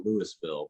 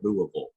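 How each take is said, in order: First: Louisville said as Loo-ee-ville, every syllable; Louisville spelled out as Loo-is-ville; outsider Louisville. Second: Louisville swallowed to Luh-vul; Louisville said like a local, Luh-vul. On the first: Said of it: "if you're not from there, you call it Louisville". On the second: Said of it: "if you're from there, you call it Louisville". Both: Shown as a demonstration.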